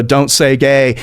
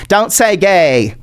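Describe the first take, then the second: First: Said in the usual way. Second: Slow put-on politician voice; mock DeSantis. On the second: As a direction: draw the slogan out in a silly voice. Repeats the slogan as mock DeSantis.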